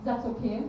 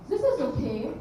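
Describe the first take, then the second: First: Put-on understated, withholding German-accented verdict; German accent, disapproving. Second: Put-on mildly German-accented praise with a rising end; German accent, approving. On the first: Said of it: "sorry about that German accent". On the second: Mother to child, approving in a German accent. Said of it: "that was my version of German".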